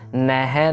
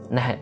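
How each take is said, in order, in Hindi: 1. आवाज़ लंबी खिंची हुई है। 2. आवाज़ छोटी और हल्की है। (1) "नह नहीं करना" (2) "ज्यादा लंबा नहीं खींचना"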